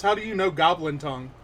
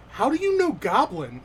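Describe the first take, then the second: First: Quick, loud question at normal pitch; milder shock. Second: High, loud, astonished outburst; shocked. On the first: Game master rewording the goblin's question, quick and mildly shocked. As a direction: rattle it off, only mildly surprised. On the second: Goblin startled that Mortimer speaks its language, shocked and loud. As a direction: blurt it out in astonishment. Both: Acted. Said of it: "looks up at you shocked and says".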